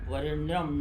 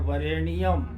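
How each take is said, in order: First: The 'nya' is said as one joined syllable. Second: The 'nya' is split into two syllables, 'ni-ya'. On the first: It follows the written spelling. The speaker calls it wrong. "लिखा जाता है वरेण्यम नया संयुक्त" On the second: It gives the line eight syllables. The speaker calls it right. "और उच्चारण करेंगे वरेण्यम"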